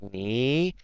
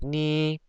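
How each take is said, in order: First: The pitch dips down and then rises. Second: The pitch stays level and monotone. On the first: "in the beginning I go down and then after like near the end I go up a little bit" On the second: "like a flat tone for this"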